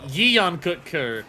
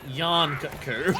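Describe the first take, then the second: First: The first word is said as two syllables. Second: The first word is said as one syllable. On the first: Someone else said it this way. "Alma very much stressed it as two syllables" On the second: The speaker's group said it this way. "and then we went"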